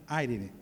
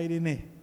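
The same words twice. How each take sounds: First: IRENE said as "AI-ri-ni"; low IRENE, stressed at the front, no H; without the circumflex. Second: IRENE said as "ai-ri-NÊ"; circumflex final E. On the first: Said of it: "eu consegui tirar esse circunflexo". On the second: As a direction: stress the last syllable of IRENE. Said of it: "tirar esse circunflexo pra ficar". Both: Shown as a demonstration.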